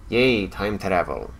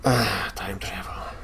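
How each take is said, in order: First: Slow, flat mock cheer on Yay; a sarcastic little hooray. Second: Slow, softer whispered Ah. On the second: Pretend. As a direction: breathe it like a secret wonder.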